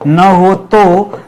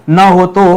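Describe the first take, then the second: First: Very slow, each word drawn out; slow emphasis. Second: Said in the usual way. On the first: Shown as a demonstration. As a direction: spell it out slowly for students.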